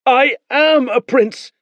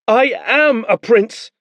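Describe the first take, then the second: First: High, slow insistence; defiant boy. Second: High, loud, slow insistence; defiant boy. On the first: Boy repeats his claim to Beren, insistent. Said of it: "the boy said". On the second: Boy insists on his rank to the soldiers. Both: Acted. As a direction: stamp each word.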